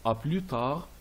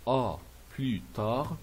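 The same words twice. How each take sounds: First: Said in the usual way. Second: "à plus tard" slowly, word by word; slow pronunciation model. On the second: Shown as a demonstration. Teacher repeating the farewell for learners, slow and separated. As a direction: pause between "à", "plus" and "tard".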